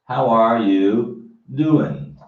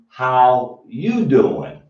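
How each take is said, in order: First: Every word is said, including 'are'. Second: The word 'are' is dropped entirely.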